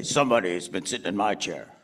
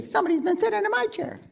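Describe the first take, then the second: First: Low bear voice; Papa Bear. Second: Very high, quick little cub; Baby Bear. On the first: Performer feeds Papa Bear the chair line, low voice. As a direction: drop it down low for the father bear. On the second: Performer feeds Baby Bear the chair line, high little voice. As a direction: squeak it fast like a small bear. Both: Shown as a demonstration.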